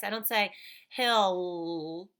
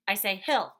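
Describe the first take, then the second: First: "hill" drawn out slowly as if the L doubled; wrong version. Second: Said in the usual way. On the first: Shown as a demonstration. Teacher showing the wrong doubled L. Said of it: "I don't say the L twice".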